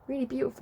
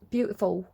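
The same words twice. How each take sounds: First: Attempted Manchester accent landing nearer London; London-sounding accent. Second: A slip into a Manchester accent. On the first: Shown as a demonstration. Reader trying her Manchester accent on purpose, comes out London. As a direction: try Manchester, come out London, pitched higher. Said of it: "That sounds more London than Manchester". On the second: Real, not acted. Reader admiring a beautiful song, slight Manchester accent. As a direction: let some Manchester creep into the word. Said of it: "My Manchester came out there".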